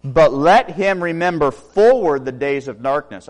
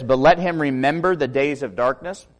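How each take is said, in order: First: Slow, loud, leaning on "forward"; stress on forward. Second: Said in the usual way. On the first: Shown as a demonstration. Preacher giving the corrected reading, stressing "forward" slowly and loudly. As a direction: land on "forward" as the new idea. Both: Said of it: "read it this way".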